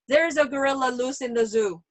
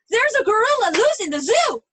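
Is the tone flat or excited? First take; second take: flat; excited. First: It is said flatly, without any feeling. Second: It is said with excitement and strong feeling.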